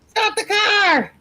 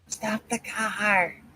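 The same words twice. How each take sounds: First: It is said loudly. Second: It is said quietly.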